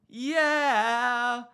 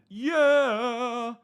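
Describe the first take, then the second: First: The vowel is wide and bright. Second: The vowel is dark and narrow. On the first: This is how a North American singer sounds. "an N A singer would probably go like" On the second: This is how a European singer sounds. "this singer, he went"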